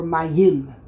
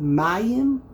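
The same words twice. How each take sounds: First: "mayim" with the weight on YIM; stress on last syllable. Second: "mayim" with the weight on MA; stress on first syllable. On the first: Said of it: "on the very last syllable". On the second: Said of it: "if you put the emphasis". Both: Shown as a demonstration.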